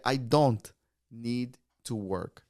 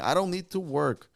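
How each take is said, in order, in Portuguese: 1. Cada palavra é dita completa e clara. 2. As palavras são ditas juntas e reduzidas. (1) "a forma pronúncia mais formal" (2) "uma forma de dia a dia"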